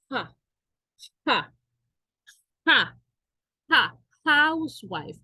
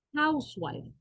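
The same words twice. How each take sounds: First: Ja ja ja, a breathy h sound repeated and rising, then housewife with a clear h; aspirated h demo. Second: Said in the usual way. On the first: Shown as a demonstration. (la h de housewife como una jota suave repetida) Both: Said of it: "Aunque sea una H".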